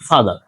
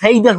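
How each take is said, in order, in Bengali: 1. প্রথম স্বরধ্বনিটি 'ah'-এর মতো উচ্চারিত হয়। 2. প্রথম স্বরধ্বনিটি 'ay'-এর মতো উচ্চারিত হয়। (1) "ফাদার হবে" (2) "এখানে ফেইদার হবে না"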